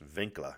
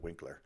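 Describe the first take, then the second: First: The name begins with a V sound. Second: The name begins with a W sound. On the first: The speaker calls it right. "the letter W is pronounced as a V, so her name was pronounced Winkler" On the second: The speaker calls it wrong. "instead of Winkler"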